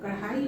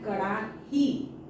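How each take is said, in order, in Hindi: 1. यह शब्द kadhai की तरह बोला जाता है, ai पर खत्म होता है। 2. यह शब्द karahi की तरह बोला जाता है, ahi पर खत्म होता है। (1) "बोलते हैं कढ़ाई चढ़ा दिया, कढ़ाई हो गया ये" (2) "और ये है कड़ाही"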